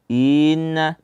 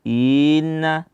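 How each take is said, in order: Both takes have the same delivery.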